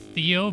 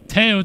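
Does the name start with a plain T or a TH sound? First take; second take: TH sound; plain T. First: The name starts with a soft th sound. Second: The name starts with a plain t sound. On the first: The name is read the English way. "I know it could be Theo" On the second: The name is read the French way. "would be how I'd pronounce that for a French name"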